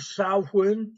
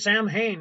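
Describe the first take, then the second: First: The middle is said with a W sound. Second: The middle is said with an H sound. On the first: The speaker calls it right. "The M and the H make the W sound" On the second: The speaker calls it wrong. "they look at that and they go"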